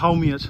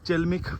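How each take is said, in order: First: The name begins with an 'h' sound. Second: The name begins with a 'ch' sound. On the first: The speaker calls it right. "এটা প্রোনাউন্স করা হয় হাউমিয়াচ" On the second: The speaker calls it wrong. "আমি চেলমিক বললাম, but actually না"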